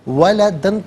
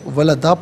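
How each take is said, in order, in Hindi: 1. यह शब्द "न" की आवाज़ पर ख़त्म होता है। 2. यह शब्द लंबे "आ" की आवाज़ पर ख़त्म होता है। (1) "वलदन पढ़ेंगे" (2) "वफ़ की सूरत में वलदा पढ़ा जाएगा"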